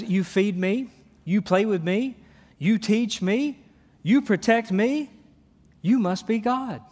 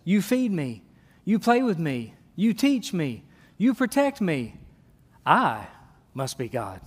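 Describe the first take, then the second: First: Each line lifting up eagerly like a grateful puppy; mildly voiced devoted dog, rising hopeful lines. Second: Smug cat voice. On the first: Preacher voicing a grateful dog to the congregation, eager and rising. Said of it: "A dog says". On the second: Pretend. Preacher voicing a self-important cat to the congregation, smug and falling. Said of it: "A cat says".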